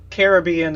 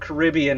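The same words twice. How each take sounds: First: The word is said fully and more slowly. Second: The word is said quickly and shortened. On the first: This is the proper pronunciation. "the proper pronunciation" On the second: This is the lazy, common everyday form. "we make it fast and short"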